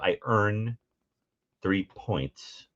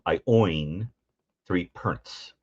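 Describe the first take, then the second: First: Earn and points have their standard vowels. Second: Earn sounds like oin, points like pernts. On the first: "instead of" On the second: "you swap E R and O I sounds"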